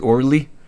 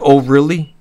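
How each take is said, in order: First: The words are squeezed together into one short word. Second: Both words are said fully and separately. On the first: "Or as I used to pronounce it"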